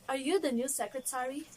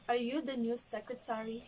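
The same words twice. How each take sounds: First: The question sounds warm and more polite. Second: The question sounds blunt and less polite. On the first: The speaker has heard much about the person. The speaker calls it right. "that is more appreciated" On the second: The speaker does not know the person. The speaker calls it wrong. "it is less suitable and less polite"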